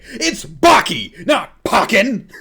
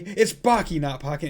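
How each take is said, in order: First: The line is delivered forcefully, with strong emotion. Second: The line is delivered softly, without much force. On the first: The speaker calls it right. "go a bit harder with it" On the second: The speaker calls it wrong. "it's not like"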